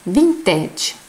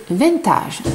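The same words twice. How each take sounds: First: "vintage" said the English way, vin-tedge with a plain i; English-style vintage. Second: "vintage" said the French way, nasal vin and a broad -tage, slowly. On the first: Crochet teacher naming her stitch, says "vintage" English-style. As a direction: say "vintage" like an English word, not French. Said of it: "Et en français, avec mon accent". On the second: Crochet teacher showing viewers her French accent, says "vintage" French-style. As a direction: give "vintage" a nasal French vin and -taje ending, unhurried. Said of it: "avec mon accent, ça fait vintage".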